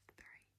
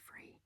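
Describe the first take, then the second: First: The word begins with a TH sound. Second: The word begins with an F sound. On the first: The speaker calls it right. "It's three" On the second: The speaker calls it wrong. "I find it really hard to not say three"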